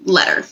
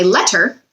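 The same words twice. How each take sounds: First: "letter" said quickly, the T's softened to a d sound. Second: "letter" said slowly with two clear T sounds; slow careful letter. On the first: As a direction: rush "letter" so the middle sounds like d. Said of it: "But when we say it quickly". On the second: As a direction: spell out "letter" with crisp T's in the middle. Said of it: "if we really slow down and say letter". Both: Shown as a demonstration.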